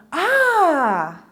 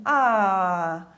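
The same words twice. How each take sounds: First: Long drawn-out delighted "ah"; big, stretched exclamation; changed intonation. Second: Long, low, deflated "ah"; low, drawn-out sigh of disappointment; changed intonation. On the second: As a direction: let the "ah" sink slowly, as if let down. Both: Shown as a demonstration. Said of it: "se eu mudar a entonação".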